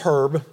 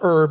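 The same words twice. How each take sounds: First: The word starts with a pronounced h. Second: The word starts with a vowel, h silent. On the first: The speaker calls it right. "I kept the H in" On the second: The speaker calls it wrong. "It's not herb"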